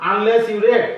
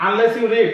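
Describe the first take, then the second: First: "read" said as red, short e; past red. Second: "read" said as reed, long ee; present reed. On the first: Teacher showing past reading to students. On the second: Teacher showing present reading to students. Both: Shown as a demonstration. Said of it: "যদি আমি উচ্চারণ করি".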